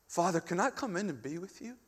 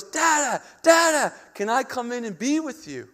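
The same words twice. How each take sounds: First: Soft, humble asking, rising at the end; gentle prayer. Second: High, loud imitation of an eager child; little daughter calling. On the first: Acted. Believer asking the heavenly Father to come in, soft prayer. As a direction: ask quietly, as a child of God would. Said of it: "That's how we pray". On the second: Small daughter at the glass door calling dad, eager imitation. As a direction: call out like a small kid, high-pitched. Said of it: "and she goes".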